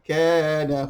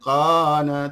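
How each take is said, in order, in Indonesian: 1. Konsonan pertama adalah k biasa, di depan. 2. Konsonan pertama adalah q dalam, dari tenggorokan. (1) "tapi kana, huruf kaf" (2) "bukan qana"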